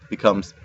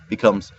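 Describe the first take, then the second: No difference in how they are said.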